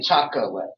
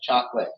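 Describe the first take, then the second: First: The word is said with three syllables. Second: The word is said with two syllables. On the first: This matches how the word is spelled. "There are three syllables there" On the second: This is the everyday way it is said. "the way we usually say it, Two syllables"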